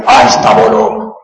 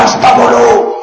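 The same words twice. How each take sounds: First: Higher, slow, drawn out mock shout. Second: Much higher, strained mock yell; mock yelled order. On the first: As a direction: shout it slowly and ironically. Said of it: "اتنی زور سے بول رہے ہو". (زور سے چلا کر آہستہ بولو کہنا) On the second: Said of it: "چیخ کے سمجھا رہا ہے". (چیخ کر آہستہ بولنے کا کہنا)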